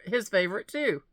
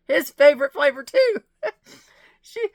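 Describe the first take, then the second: First: Said in the usual way. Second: Overcome, the words cracking into tears; "His favorite flavor too" breaks into real crying. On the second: Real, not acted. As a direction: voice breaking into a sob, much louder and higher. Touched by friend's note.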